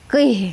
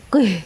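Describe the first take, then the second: First: The final h is breathed deep from the chest. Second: The final h is not breathed from the chest. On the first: The speaker calls it right. "Ha-nya mengarah ke dada" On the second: The speaker calls it wrong. "bukan qih gitu ya"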